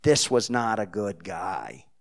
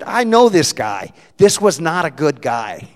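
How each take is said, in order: First: "This was not a good guy" repeated slowly at normal volume; slow, low-key Jersey accent. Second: Shouted, high New Jersey declaration; booming Jersey accent, "This" hit hard; loud Jersey accent. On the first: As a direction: drop back down and drag it out. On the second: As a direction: declare it loudly like a blunt Jersey woman. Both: Retold or imitated. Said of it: "in her broken Jersey accent".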